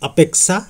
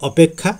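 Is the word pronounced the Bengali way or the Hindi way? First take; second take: Hindi; Bengali. First: The word is said with Hindi pronunciation. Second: The word is said with Bengali pronunciation. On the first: "হিন্দিতে অপেক্ষা" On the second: "তাই বাংলায় অপেক্ষা"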